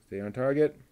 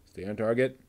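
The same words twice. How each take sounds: The two takes are said the same way.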